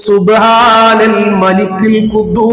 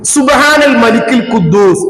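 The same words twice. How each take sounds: First: It is said drawn out and louder. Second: It is said at normal length and volume.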